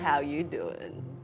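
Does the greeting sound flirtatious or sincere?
flirtatious. The greeting sounds playful and flirtatious. A flirtatious conversation opener. "you can sound like Joey and just be a flirt"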